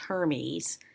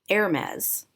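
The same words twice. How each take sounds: First: The name is said with a non-French pronunciation. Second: The name is said with a French pronunciation. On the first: The speaker calls it wrong. "not pronounced Hermes" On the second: The speaker calls it right. "Hermes is the French pronunciation"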